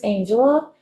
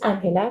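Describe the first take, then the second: First: The name is pronounced with English sounds. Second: The name is pronounced with Spanish sounds. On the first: "but I am not from here" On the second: "the real pronunciation of my name is Angela, because we speak Spanish back home"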